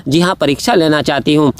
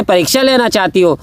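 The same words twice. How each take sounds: First: "परीक्षा लेना चाहती हूँ" as a lower-toned answer; affirming reply. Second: "परीक्षा लेना चाहती हो" as a question; asking. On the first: Parvati confirming she wants the test, "जी हाँ" affirming. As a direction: answer "जी हाँ" as a settled yes. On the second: Asked of Parvati about testing Ram, "परीक्षा लेना चाहती हो" questioning. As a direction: put "परीक्षा लेना चाहती हो" as a mild challenge. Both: Retold or imitated.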